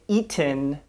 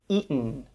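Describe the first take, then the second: First: The T is a fully released T sound. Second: The T is cut off as a glottal stop. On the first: The speaker calls it wrong. "We don't say" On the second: The speaker calls it right. "but we tend to say"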